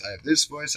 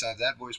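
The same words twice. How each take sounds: First: Said in the usual way. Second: Softer, hushed take of the line; quiet hushed version. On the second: Shown as a demonstration. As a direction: drop into a hush so as not to disturb anyone. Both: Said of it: "I have a hushed voice".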